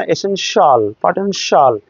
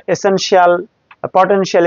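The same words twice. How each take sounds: First: এসেনশিয়াল, পটেনশিয়াল ending in a single falling shol; one-syllable shol. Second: এসেনশিয়াল, পটেনশিয়াল ending in two syllables, shi-al; spelled-out shi-al. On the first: English teacher models correct endings, one-syllable shol. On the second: English teacher shows the wrong way, shi-al endings. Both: Shown as a demonstration. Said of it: "এরকম না".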